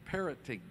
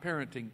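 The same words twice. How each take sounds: First: "parroting" said clearly, PAR-ro-ting, the corrected word. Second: "parenting" said as the wrong word, with a short "a" and "-ent-". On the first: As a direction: stress "parroting" as the right word, firmly. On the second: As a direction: say "parenting" as the mistaken word to reject. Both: Shown as a demonstration. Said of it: "not parenting, parroting".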